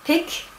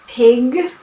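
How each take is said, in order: First: The final consonant is voiceless, like a K. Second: The final consonant is voiced, like a G. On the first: "they would just devoice everything" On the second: "voiced and devoiced sounds"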